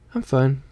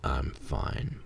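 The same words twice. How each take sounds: First: It is said in a normal voice. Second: It is said in a deep devil voice.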